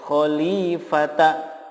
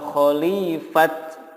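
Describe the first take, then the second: First: The word ends with a vowel after t. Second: The word ends with a t sound. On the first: "tidak boleh dibaca khalifata" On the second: "atau khalifat, nggak boleh"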